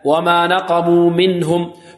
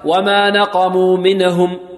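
First: The n in minhum is held smoothly without bouncing. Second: The n in minhum has an extra bouncing release. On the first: The speaker calls it right. "منهم لا" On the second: The speaker calls it wrong. "البعض ربما ينطقها هكذا"

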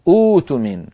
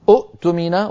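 First: The second glottal stop becomes a long vowel. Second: Two glottal stops are pronounced in a row. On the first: The speaker calls it right. "بل تنطقها كما نراها في صورتها الأخيرة الثالثة" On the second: The speaker calls it wrong. "فتظهر همزة الوصل مضمومة أؤتمنة، ولكن العرب لا تنطقها كذلك"

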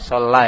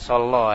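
First: The syllable after the L has an open 'a' vowel. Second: The syllable after the L has a rounded 'o' vowel. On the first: The speaker calls it right. "Itu la bukan lo. Bacanya la" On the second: The speaker calls it wrong.

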